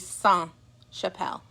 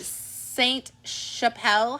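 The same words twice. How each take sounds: First: The T at the end of Saint is silent. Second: The T at the end of Saint is sounded. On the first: The word is spelled without an E at the end. "if there was no E, it would be" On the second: The word is spelled with an E at the end. "the reason why you pronounce the T is there's an E at the end"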